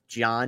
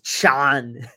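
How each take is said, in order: First: The name begins with a J sound. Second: The name begins with a CH sound. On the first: "if his name is John" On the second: "Schwarzenegger pronounces his J's like C H's"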